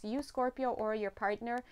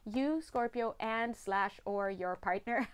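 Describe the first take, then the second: First: Said in the usual way. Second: "and slash" slowed and set apart; stress on AND SLASH. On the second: Real, not acted. Reader correcting herself for Scorpio, slow stress on "and slash or". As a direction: spell out "and slash or" slowly, deliberately. Restates it, stressing both options.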